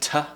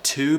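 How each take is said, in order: First: The vowel is reduced to a quick schwa. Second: The vowel is a full, clear vowel. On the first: "becoming t" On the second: "words like to"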